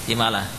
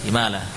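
No difference in how they are said.

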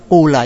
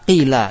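First: The first vowel is a pure u sound. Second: The first vowel is a pure i sound. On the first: "yang kedua qula" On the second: "pertama qila"

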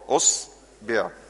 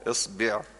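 First: The word begins with a u vowel. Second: The word begins with an i vowel. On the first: "انزل كده على الضمة" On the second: "اكسر الهمزة"

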